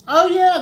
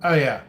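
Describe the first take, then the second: First: High, loud sudden realization. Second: Said in the usual way. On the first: Real, not acted. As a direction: it just hit you. Sudden recollection while chatting.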